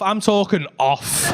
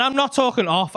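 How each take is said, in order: First: "off" drawn out with weight; slow right down and land hard on "off"; stress on off. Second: Said in the usual way. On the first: Shown as a demonstration. Comedian stressing how far fingers came off, heavy "off".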